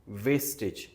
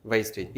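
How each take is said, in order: First: वेस्टेज with a plain "ve" vowel; wrong vowel. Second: वेस्टेज said "wais-tej" with the diphthong; right diphthong. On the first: Teacher showing the common wrong वेस्टेज. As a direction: say वेस्टेज as "ves-tej", the wrong way. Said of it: "this is actually wastage". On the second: Teacher modelling the correct वेस्टेज. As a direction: glide from a to i in वेस्टेज. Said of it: "these are two syllables". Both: Shown as a demonstration.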